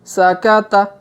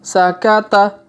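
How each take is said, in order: No difference in how they are said.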